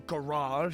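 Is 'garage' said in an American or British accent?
American. The word is said with an American pronunciation.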